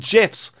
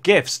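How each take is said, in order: First: The word begins with a soft J sound. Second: The word begins with a hard G sound. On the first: The speaker calls it right. "got to call them GIFs" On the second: The speaker calls it wrong. "not GIFs"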